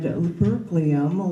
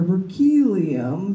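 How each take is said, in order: First: It is said with an American pronunciation. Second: It is said with a British pronunciation.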